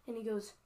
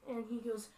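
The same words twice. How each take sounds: The two takes are said the same way.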